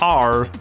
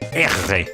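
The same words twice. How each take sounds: First: The R sound is plain, without a throaty growl. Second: The R sound is growled in the throat. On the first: The speaker calls it wrong. "Not R" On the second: The speaker calls it right. "it's like trying to do a growl"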